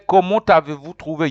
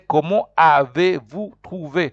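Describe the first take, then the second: First: The T of comment links into avez. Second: Comment is said alone, without a linking sound. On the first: The speaker calls it wrong. "You don't say" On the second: The speaker calls it right. "You say"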